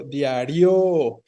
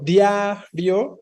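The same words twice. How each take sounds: First: Diario with the final RIO stretched out, diaRIOOO; lengthened last syllable. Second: Diario with DIA stretched out, then a short rio; lengthened first syllable. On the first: Teacher tests the wrong option, diario with drawn-out final RIO. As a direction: hold the end of diario long and stressed. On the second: Teacher tests the stressed syllable, diario with drawn-out DIA. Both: Shown as a demonstration. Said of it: "Alargando las sílabas".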